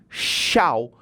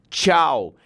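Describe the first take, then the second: First: The word starts with a sh sound. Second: The word starts with a ch sound. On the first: This is how some other speakers say it. "como se fosse um C H" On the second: This is how it is said in Brasília. "o T chiado"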